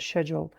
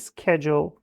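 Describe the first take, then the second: First: It is said with a British pronunciation. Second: It is said with an American pronunciation. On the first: "که بریتانیش هست" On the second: "که آمریکاییش هست"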